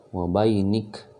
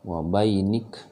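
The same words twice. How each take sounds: Both takes have the same delivery.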